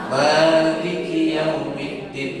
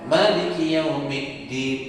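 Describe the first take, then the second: First: The first vowel of Maliki is drawn out long. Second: The first vowel of Maliki is cut short. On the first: "Biasanya gimana?" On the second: "Boleh dipendekkan"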